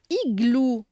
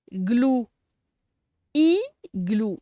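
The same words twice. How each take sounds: First: Said in the usual way. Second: "Igloo" pulled apart as "i", long pause, "glou"; syllable by syllable. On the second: Shown as a demonstration. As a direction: separate the two halves of "Igloo" loudly. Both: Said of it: "on va séparer les syllabes".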